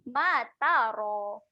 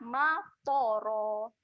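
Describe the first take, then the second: First: The ta syllable is thin, with a light vowel. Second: The ta syllable is thick, with a darkened vowel. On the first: The speaker calls it right. "Bunyi yang betul dia ta tu nipis saja" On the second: The speaker calls it wrong. "Bunyi yang salah"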